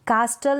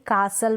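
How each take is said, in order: First: कास्टल with a clear t after s; T sounded. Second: कासल with no t; silent T. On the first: Teacher showing the misreading, कास्टल with t sounded. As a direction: say कास्टल as "kaas-tal". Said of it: "नहीं पढ़ेंगे". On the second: Teacher modelling the correct reading, कासल without t. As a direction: say कासल as "kaa-sal". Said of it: "पढ़ेंगे". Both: Shown as a demonstration.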